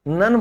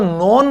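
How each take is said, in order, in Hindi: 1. स्वर 'uh' जैसा सुनाई देता है। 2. स्वर 'oh' जैसा सुनाई देता है। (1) "नन बोला गया है" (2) "नोन नहीं बोला गया"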